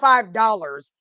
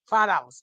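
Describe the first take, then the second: First: Every sound of the words is fully pronounced. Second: The words are clipped with the R dropped. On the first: The speaker calls it wrong. "Not five dollars. You don't say the whole word" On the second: The speaker calls it right. "no R's in here. It's real when there's no R's"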